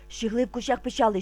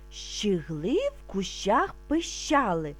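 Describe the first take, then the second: First: It is said very fast. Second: It is said calmly and slowly. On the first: "А тепер дуже швидко" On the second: "Спочатку ми будемо вимовляти спокійно, не спіша"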